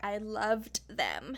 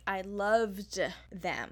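First: Slow, "loved" drawn out; stress on past tense. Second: Slow with "loved" weighted; stress on past tense. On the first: Host repeating the mother's past-tense slip, slow stress. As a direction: lean on "loved" slowly. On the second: Host pointing out the mother's past-tense slip, slow stress. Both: Retold or imitated. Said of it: "meaning past tense".

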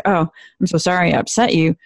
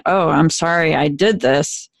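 First: Said in the usual way. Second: Slow, with did weighted and falling; stress on did. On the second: Shown as a demonstration. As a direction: land firmly on the word did. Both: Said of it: "rather than".

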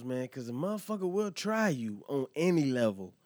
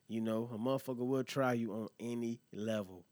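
First: Pushed up and louder, driving the point home; emphatic. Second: Said in the usual way. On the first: Real, not acted. Host warns listeners about being tested, emphatic. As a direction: lean hard into the warning.

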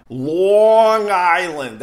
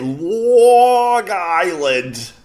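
First: "Long Island" drawn out slowly in thick Long Island accent. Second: "Long Island" stretched even longer, Long Island accent; exaggerated Long Island accent. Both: Shown as a demonstration. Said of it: "That's how we say it".

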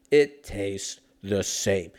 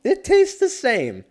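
First: Slow, drawn-out silly voice; slow deep mock voice. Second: Loud, high, slow mock declaration; shouting it like a silly announcer; high hammed-up voice. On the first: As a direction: stretch it out goofy. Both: Repeating line in mock voices.

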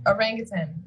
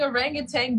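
First: "orangutan" ending in a clean "tan"; proper pronunciation. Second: "orangutan" with a -tang ending; sounds like orangutang. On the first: Quizmaster corrects how it's pronounced, "orangutan" ending in tan. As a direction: say "orangutan" with a final n, no g. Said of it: "but it's pr-, pronounced". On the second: Speller admits how orangutan sounded, "orangutan" ending like tang. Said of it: "It sounds like I'm saying". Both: Shown as a demonstration.

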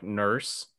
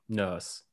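First: "nurse" with a strong, hard American R. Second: "nurse" with the R dropped, a self-admitted weak British accent. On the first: Host showing how Americans hit the R in "nurse". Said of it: "you really hit the R". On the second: Host attempting British "nurse" without the R, admittedly badly. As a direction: try a British "nurse", skipping over the R. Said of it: "I can't do a British accent". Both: Shown as a demonstration.

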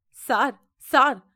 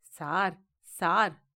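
First: Calling out louder, second one loudest; desperate calling out; wailing cry. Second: Choked, pleading sob; sobbing voice. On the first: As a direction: shout for help through the door. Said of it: "கதறிக்கொண்டே". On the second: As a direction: whimper it through the bars. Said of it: "தேம்பும் குரலில்". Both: A narrator's reading.

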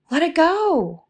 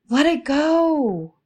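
First: Lifted release. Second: Slow release. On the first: To listeners holding emotions, a high, floating release. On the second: To listeners holding emotions, a slow, high, drawn-out release. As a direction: let it go, high and drawn out slowly. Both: Shown as a demonstration. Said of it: "So when something comes up".

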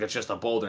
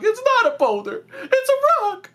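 First: Low-key, soft dismissive quote; Squidward. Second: Very high, excited cartoon squeal; SpongeBob. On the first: Retold or imitated. Friend retelling Squidward dismissing the find, softly unimpressed. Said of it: "And Squidward's like". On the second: Friend quoting SpongeBob's thrilled correction, squeaky and very high. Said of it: "And SpongeBob's like".

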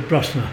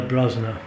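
First: Brosna with a hissing s, "BRUSS-na"; local pronunciation. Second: Brosna said with a voiced z, "BROZ-na"; outsiders' pronunciation. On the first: Storyteller shows how natives say it, Brosna as BRUSS-na. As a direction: say Brosna with a short vowel and unvoiced s. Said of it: "people from there, they pronounce it Brosna". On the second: Storyteller echoes the interviewer, outsiders' Brosna with a z. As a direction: put a buzzing z in Brosna. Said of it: "They pronounce it like you did there". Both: Shown as a demonstration.

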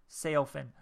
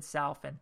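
First: "Sailfin" with a clear long "ay" in "Sail"; corrected pronunciation. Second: "salfin" said with a short "sal" in place of "sail"; mispronounced sailfin. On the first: Fish reviewer correcting own slip, "Sailfin" clearly pronounced. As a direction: say "Sailfin" as sail plus fin. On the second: Fish reviewer quoting own slip, "salfin" mispronounced with "sal". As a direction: slip of the tongue on "salfin", first vowel wrong. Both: Shown as a demonstration. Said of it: "I said salfin".

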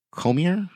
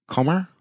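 First: "Comer" tried as KOH-mee-er, higher, rising; unsure pronunciation. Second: "Comer" tried as two-syllable KOH-mer, higher, rising; settling on pronunciation. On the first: Host testing the girl's surname aloud, "Comer" as questioning KOH-mee-er. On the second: Host retrying the girl's surname, "Comer" as questioning KOH-mer. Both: Shown as a demonstration. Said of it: "We're gonna go with Comer".

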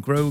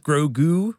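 First: Grogu with the stress on the second syllable, GROgu becomes groGOO; accent on the goo. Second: Said in the usual way. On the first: Real, not acted. Friend says the name Grogu, stressing the goo. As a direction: lean on the goo of Grogu, a little fancy. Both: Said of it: "I'm putting the accent on the goo".

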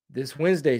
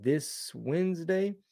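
First: Said in the usual way. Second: "This Wednesday?" asked slowly with a rising, doubtful tune; slow quiet query, still unsure; unsure question. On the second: Real, not acted. Checking the tour date.

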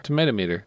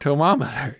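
First: "Tomatometer" with the extra syllable kept; full pronunciation. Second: "Tomometer" without the "ma" syllable; dropped syllable. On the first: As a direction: say "Tomatometer" with every syllable, to-MAY-to-meter. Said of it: "There's an extra syllable in there". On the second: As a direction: say "Tomometer" as to-MOM-eter, one syllable short. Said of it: "you're dropping a syllable". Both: Shown as a demonstration.

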